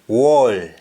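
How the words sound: It starts with a w sound.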